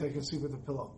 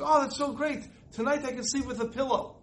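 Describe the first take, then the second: First: A hushed, much softer closing line; softly, much quieter. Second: Excited shriek. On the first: Teenage daughter telling her parents why, much softer. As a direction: let it drop to a soft, much quieter confession. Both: Retold or imitated.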